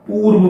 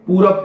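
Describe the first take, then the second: First: पूर्व with r running straight into v; पूर्व pronunciation variant. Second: पूरब with a vowel after र, ending in b; colloquial पूरब pronunciation. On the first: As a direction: say पूर्व as poorv, no vowel after र. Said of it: "पूर्व बोलते हैं". (पूर्व, र और व को जोड़कर) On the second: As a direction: say पूरब in two syllables, poo-rab. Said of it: "पूरब कहते हैं". (पूरब, र के बाद अ और अंत में ब) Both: Shown as a demonstration.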